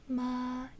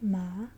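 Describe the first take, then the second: First: The pitch stays level throughout. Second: The pitch rises toward the end. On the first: "here we have a flat tone" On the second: "you kind of go up at the end"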